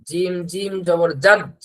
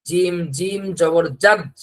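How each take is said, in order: Both takes have the same delivery.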